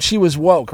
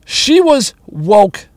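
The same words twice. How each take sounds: First: Said in the usual way. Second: She was woke drawn out slowly, weight on she, rising at the end; slow emphatic stress. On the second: Shown as a demonstration. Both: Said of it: "Quote, unquote".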